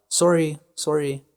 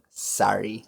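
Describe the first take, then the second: First: Sorry said the Canadian way, with a rounded, open "sor" like "sore-ee". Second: Sorry said the American way, "sar-ee" with an open "a". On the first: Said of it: "we use it a lot". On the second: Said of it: "they would pronounce it more like". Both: Shown as a demonstration.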